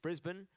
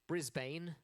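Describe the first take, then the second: First: The last syllable has a short, reduced vowel. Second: The last syllable has a full, unshortened vowel.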